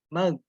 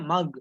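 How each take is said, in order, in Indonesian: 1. Bunyi gh itu longgar dan mengambang. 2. Bunyi gh keluar tegas dari tenggorokan. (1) "terkadang membacanya melayang gitu"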